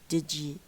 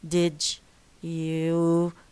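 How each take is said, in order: First: The d and y merge into one j sound. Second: The d and y sounds stay separate. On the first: The speaker calls it right. "So the ja replaces the and ya" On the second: The speaker calls it wrong. "instead of saying did you see it"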